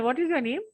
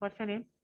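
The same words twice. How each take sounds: First: What is your name asked with a clear rising tune on the end; polite rising question. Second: What's your name dropped much softer with a small lift on your; couldn't-care-less question; indifferent flat question. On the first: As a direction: ask it with the pitch going up at the end. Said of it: "rising tone क्या होता है?". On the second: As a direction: ask it as if you don't care about the answer. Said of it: "और एक ये tone हुआ". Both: Shown as a demonstration.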